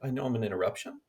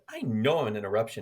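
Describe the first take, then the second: First: The voice rises on the word interruption. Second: The voice falls on the word interruption. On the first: The speaker calls it wrong. "your voice went up" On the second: The speaker calls it right. "You didn't say that"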